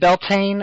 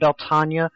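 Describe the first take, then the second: First: The word is said with two syllables. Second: The word is said with four syllables. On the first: "he's pronouncing it Beltane" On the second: "I'm pronouncing it Beltania"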